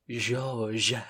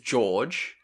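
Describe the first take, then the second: First: The name is pronounced the French way. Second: The name is pronounced the English way. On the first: "In French, it is" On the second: "In English, it is"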